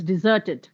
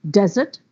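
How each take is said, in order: First: "deserted" as a verb, ZERT stressed; de-ZERT-ed, weight on the middle of "deserted"; stress on second syllable. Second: "Desert" as a noun, DES stressed; DEZ-ert, weight on the start of "Desert"; stress on first syllable. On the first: Teacher shifting stress to make a verb, second-syllable stress. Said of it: "Now just shift the syllable". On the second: Teacher giving noun examples, first-syllable stress. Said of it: "If the stress is on the first syllable". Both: Shown as a demonstration.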